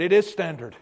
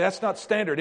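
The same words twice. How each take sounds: First: "is" leaned on as a firm correction; stress on is. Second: Doubtful objection. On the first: Shown as a demonstration. Pastor firmly correcting a doubting listener. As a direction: insist with the word "is". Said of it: "answering the imagined objection". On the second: Retold or imitated. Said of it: "you say".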